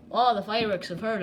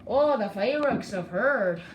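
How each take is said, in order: First: Said in the usual way. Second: Slow, lilting bad Irish accent; hammed-up Irish accent, higher pitch; terrible Irish accent. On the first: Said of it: "this is my, um, terrible Irish accent". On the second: Shown as a demonstration. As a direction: put on a badly done Irish brogue, drawn out. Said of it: "terrible Irish accent".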